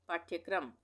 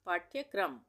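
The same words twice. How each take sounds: The two takes are said the same way.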